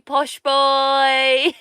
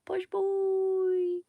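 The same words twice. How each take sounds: First: Teasing mock posh. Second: High mock posh. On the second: Teasing posh boy again.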